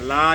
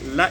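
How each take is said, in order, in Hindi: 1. स्वर दीर्घ है और खिंचा हुआ है। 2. स्वर ह्रस्व है, खिंचा हुआ नहीं। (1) "खींचा नहीं जाएगा, ला नहीं पढ़ेंगे" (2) "बस ला इलल्लाह"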